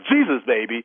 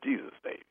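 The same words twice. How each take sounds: First: It is said loudly and forcefully. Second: It is said softly and quietly.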